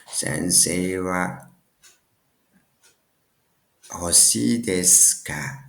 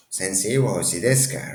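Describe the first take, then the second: First: Slow, with a long pause mid-phrase; slow, piecemeal. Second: Brisk run-through in one go; quick, joined up. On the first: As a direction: build the phrase slowly, piece by piece. Builds example phrase piece by piece. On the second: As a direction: say the whole phrase quickly, without pauses. Repeats the whole phrase run together. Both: Shown as a demonstration.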